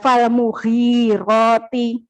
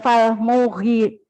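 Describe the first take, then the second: First: The vowel in "mu" is short. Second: The vowel in "mu" is drawn out long. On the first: The speaker calls it right. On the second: The speaker calls it wrong.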